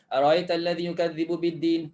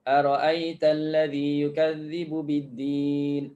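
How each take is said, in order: First: The glottal stop after the r is softened. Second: The glottal stop after the r is clear. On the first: "Dia dah sebut tak clear bunyi hamzah selepas hamzah tu" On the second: "kita biasa baca ara'aita kan. Selalu kita baca dalam solat"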